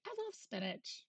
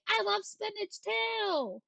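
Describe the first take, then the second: First: High, much softer sweet little voice. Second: High, slow put-on gushing voice; excited. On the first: Pretend. Streamer repeating love for spinach, soft high coo. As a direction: coo it quietly to yourself. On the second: Streamer declaring love for spinach, high gushing voice.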